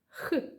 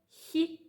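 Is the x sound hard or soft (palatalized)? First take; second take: hard; soft. First: The x sound is hard, made far back. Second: The x sound is soft, with a palatalized quality. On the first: "При вимові твердого звука язичок відтягуємо до піднебіння" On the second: "при вимові м'якого звука «хі» язичок за нижніми зубами"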